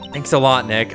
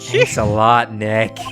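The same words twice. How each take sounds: First: It is said in a normal voice. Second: It is said in an evil voice.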